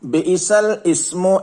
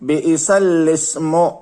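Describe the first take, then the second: First: A glottal stop is pronounced before ismu. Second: The glottal stop is dropped, joining lam smoothly. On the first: The speaker calls it wrong. "തെറ്റാണ്" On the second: The speaker calls it right. "എന്താണ് ശരി?"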